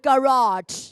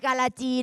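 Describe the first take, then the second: First: The word ends without an added vowel. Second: The word ends with an added 'ee' vowel. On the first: The speaker calls it right. "พูดตามลูก" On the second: The speaker calls it wrong. "ไม่อ่านไทฮีการาจีนะลูก"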